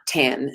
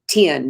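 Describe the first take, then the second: First: The vowel sounds like the e in pen. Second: The vowel sounds like the i in pin. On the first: "not ten" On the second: "I used to say ten"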